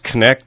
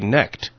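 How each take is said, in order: First: The initial K sound is pronounced. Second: The initial K sound is silent. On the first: "the way our family has always said this" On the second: "just with a silent K"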